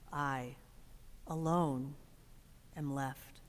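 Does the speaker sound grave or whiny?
grave. It is said slowly and gravely, with pauses. He feels the real burden of being alone. "with the weight of it"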